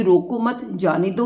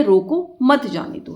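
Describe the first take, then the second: First: "रोको मत" together, then "जाने दो"; short break after "मत", rising on "दो"; comma after मत. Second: Slow, raised pitch, "रोको" set apart; comma after रोको. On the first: Teacher offering one possible meaning, break after "मत". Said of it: "अगर हमारे पास कोमा नहीं होता". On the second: Teacher offering the other meaning, break after "रोको". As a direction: pause after "रोको", then "मत जाने दो" together. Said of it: "क्या इसका मतलब निकालें". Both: Shown as a demonstration.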